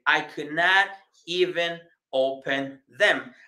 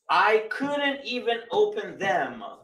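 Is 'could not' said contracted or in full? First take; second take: full; contracted. First: Could and not are said as separate words. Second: Could and not are joined into one word. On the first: "esa tuvo que haber sido su frase" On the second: "La palabra could con el not se unen y se pronuncian"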